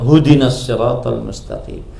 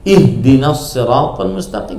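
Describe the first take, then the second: First: The first word begins with a 'hu' sound. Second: The first word begins with an 'ih' sound. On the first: The speaker calls it wrong. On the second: The speaker calls it right. "yang benar"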